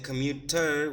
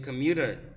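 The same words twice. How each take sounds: First: The middle consonant is a clear T sound. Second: The middle consonant is a soft D sound. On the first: This is how speakers outside America say it. "we don't like to say it with a T" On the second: This is how Americans say it. "we change this into a D sound"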